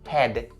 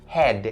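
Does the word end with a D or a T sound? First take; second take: D; D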